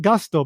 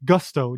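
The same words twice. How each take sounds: First: "Gusto" with an ah, GAH-stoh; Japanese-style vowel. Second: "Gusto" as the English word, GUSS-toh; short uh in "Gusto", as it is written; English spelling pronunciation. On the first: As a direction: say "Gusto" as GAHS-toh. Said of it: "I'm pronouncing it Gusto". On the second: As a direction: say "Gusto" with the vowel of "gust". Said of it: "but it's written Gusto". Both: Shown as a demonstration.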